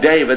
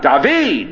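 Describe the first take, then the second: First: David is given its common modern English pronunciation. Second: David is given its ancient original pronunciation. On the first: The speaker calls it wrong. "they didn't call him David" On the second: The speaker calls it right. "They call him David. That's his name"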